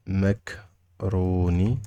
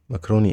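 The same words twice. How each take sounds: First: "Macaroni" drawn out very slowly in parts; syllable by syllable. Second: Said in the usual way. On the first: Shown as a demonstration. Teacher showing learners the word, syllable by syllable. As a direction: stretch and split "Macaroni" for learners.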